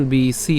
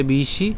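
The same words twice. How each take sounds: First: "বিসি" with a plain dental s; dental sibilant. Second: "বিশি" with a palatal sh, tongue toward the palate; palatal sibilant. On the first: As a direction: hiss the s in "বিসি" at the teeth. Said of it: "যদি দন্তস্ব থাকতো". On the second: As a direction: make the sh in "বিশি" palatal, not retroflex. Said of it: "যদি তালব্য স থাকতো". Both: Shown as a demonstration.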